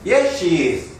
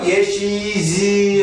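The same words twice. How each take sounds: First: The final s is voiceless and drops off abruptly. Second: The final s is voiced and keeps ringing. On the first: The sentence ends here. "마지막에 딱 끊어질 때는 급격하게 yes she is 하고 힘이 빠져서 뚝 떨어지기" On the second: The speech continues after this. "계속 간다 하면 yes she is 하고 울려줘야"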